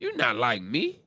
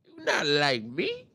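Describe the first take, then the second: First: Said in the usual way. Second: Slow taunting diss. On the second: Retold or imitated. Repeated slower in put-on voice.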